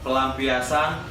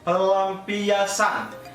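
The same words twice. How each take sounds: First: The middle L sound is short and normal. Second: The middle L sound is held noticeably long.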